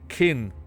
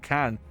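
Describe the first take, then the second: First: The vowel is short and close, like 'kin'. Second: The vowel is open and flat, like 'can'. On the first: The speaker calls it right. "It's kin" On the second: The speaker calls it wrong. "She said can"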